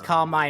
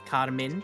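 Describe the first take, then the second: First: The last syllable sounds like the word 'mine'. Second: The last syllable has a short 'min' sound. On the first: This is a personal way to keep saying it. "it's like car, mine" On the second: This is how the game says it. "the game says it as Carmin"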